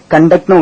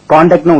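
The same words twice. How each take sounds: First: கண்டக்ட் opening with a short "kun"; short first vowel. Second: காண்டாக்ட் opening with a long, open "kaan"; open first vowel. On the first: Teacher showing learners the verb's pronunciation, short "kun" in கண்டக்ட். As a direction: say கண்டக்ட்னு with a brief "uh" in the first syllable. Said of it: "கண்டக்ட்னு உச்சரிக்கலாம்". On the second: Teacher showing learners the noun's pronunciation, open "kaan" in காண்டாக்ட். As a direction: say காண்டாக்ட்னு with a drawn "aa" in the first syllable. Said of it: "காண்டாக்ட்னு உச்சரிக்கலாம்". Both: Shown as a demonstration.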